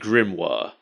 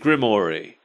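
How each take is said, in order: First: The name ends with a 'wahr' sound. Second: The name ends with a 'ree' sound. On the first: The speaker calls it right. "I read it as Harry Grimoire" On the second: The speaker calls it wrong. "they pronounce it Grimory"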